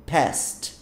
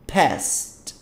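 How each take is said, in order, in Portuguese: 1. A palavra é dita com uma sílaba. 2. A palavra é dita com uma sílaba.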